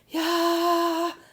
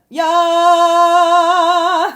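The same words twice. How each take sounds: First: It is said in a breathy voice. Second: It is said in a full chest voice. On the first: "that's what's making it more breathy" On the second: "that's chest voice, full connection"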